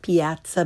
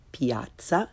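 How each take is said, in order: First: "piazza" with English short a as in cat; learner's mispronunciation. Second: "piazza" with open ah, rising; correct Italian pronunciation. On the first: Teacher shows beginners' mistake, "piazza" with English short a. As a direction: say "piazza" as pee-AT-suh. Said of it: "first the way most people". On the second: Teacher corrects beginners, "piazza" with Italian ah. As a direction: say "piazza" as PYAHT-tsah. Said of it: "follow it with the correct pronunciation". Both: Shown as a demonstration.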